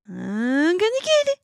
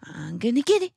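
First: Higher, louder excited taunt; playful taunt. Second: Playful taunt. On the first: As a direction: build the tease up, louder. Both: Shown as a demonstration. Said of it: "I usually say stuff like".

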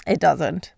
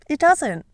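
First: Said in the usual way. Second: Firm falling it doesn't, stressing doesn't; emphatic repeat. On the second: Shown as a demonstration. Answering her own question, firm and emphatic. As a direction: say It doesn't with weight on doesn't.

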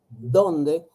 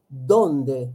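No difference in how they are said.

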